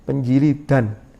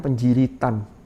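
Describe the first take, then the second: First: The final syllable has a d sound. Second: The final syllable has a t sound.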